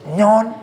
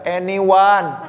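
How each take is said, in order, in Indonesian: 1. Kata itu dipadatkan menjadi satu suku kata. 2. Kata itu diucapkan dengan tiga suku kata. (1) "Enggak kayak teman aku tiba-tiba bilang kayak gini" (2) "Pas dibaca anyone"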